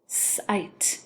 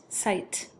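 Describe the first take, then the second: First: "Sight" split into a held s, then long i and t; tapped out. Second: Said in the usual way. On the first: Shown as a demonstration. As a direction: separate the sounds in "Sight". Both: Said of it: "have you tap it out".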